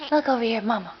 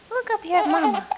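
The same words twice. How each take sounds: First: Said in the usual way. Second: Higher, louder call with up stressed. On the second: Real, not acted. Mother calls baby Andrew again, higher and louder baby talk. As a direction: lift it and punch up to get his eyes.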